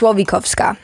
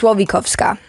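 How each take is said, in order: First: The name is said with Polish pronunciation. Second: The same.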